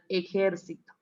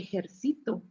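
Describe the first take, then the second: First: The stress is on the third-to-last syllable. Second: The stress is on the second-to-last syllable. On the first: "En las palabras esdrújulas, la sílaba tónica es la antepenúltima" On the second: "En las palabras graves, la sílaba tónica es la penúltima"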